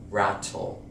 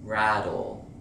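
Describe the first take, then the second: First: British T in "rattle"; true T rattle. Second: American flap T in "Rattle". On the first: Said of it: "Notice I don't pronounce the word rattle". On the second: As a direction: say "Rattle" like "raddle". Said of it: "I don't pronounce the word rattle". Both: Shown as a demonstration.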